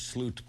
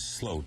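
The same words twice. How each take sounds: First: The vowel sounds like the one in boot. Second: The vowel sounds like the one in boat. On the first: The speaker calls it wrong. "because it's spelled S L O O T" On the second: The speaker calls it right. "the correct Dutch pronunciation is Sloot, as if it were S L O A T"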